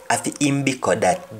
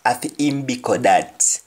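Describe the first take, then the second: First: "Afi im biko that" fast in Jamaican patois, rising on "im"; quick patois take. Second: "Afi im biko that" in Jamaican patois, "im" stressed, falling; patois phrase read for learners. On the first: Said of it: "that is its food". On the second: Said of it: "Biko is food". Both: Shown as a demonstration.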